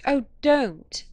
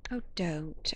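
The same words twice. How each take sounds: First: Loud, high cry of protest; sudden loud plea, pitched up; exclaiming. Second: Said in the usual way. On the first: A narrator's reading. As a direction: burst out pleading. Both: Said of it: "I exclaimed".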